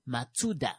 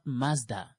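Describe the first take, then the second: First: The name is said with three syllables. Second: The name is said with two syllables. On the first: The speaker calls it right. "It's Matsuda" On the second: The speaker calls it wrong. "It turns out it's not Mazda"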